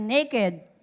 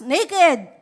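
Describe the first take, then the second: First: It is said at normal volume. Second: It is said loudly.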